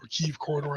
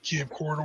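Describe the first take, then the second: First: Kyiv said as one syllable, KEEV; corrected pronunciation. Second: Kiev said in two syllables, kee-EV. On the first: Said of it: "I should say". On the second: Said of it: "I'm always gonna mispronounce Kiev". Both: Real, not acted.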